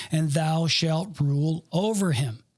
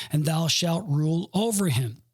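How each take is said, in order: Both takes have the same delivery.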